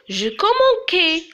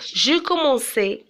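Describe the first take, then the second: First: The c is pronounced as a hard k sound. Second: The c is pronounced as a soft s sound. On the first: The speaker calls it wrong. "Mais c'est faux" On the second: The speaker calls it right. "Je dois ajouter la cédille pour la lettre C"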